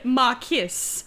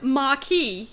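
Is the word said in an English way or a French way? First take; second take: English; French. First: The word is said an anglicized way. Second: The word is said the French way. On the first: This is how the character said it. The speaker calls it wrong. "he said marquis" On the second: This is the expected pronunciation. The speaker calls it right. "instead of marquis"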